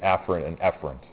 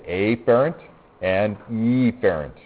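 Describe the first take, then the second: First: The words are said in their natural everyday form. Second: The words are altered to sound more distinct. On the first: This is how the terms are said in real life. The speaker calls it right. "as opposed to" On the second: The terms are made easier to tell apart. The speaker calls it wrong. "I usually mispronounce it a little bit so that it's easier for you to understand me"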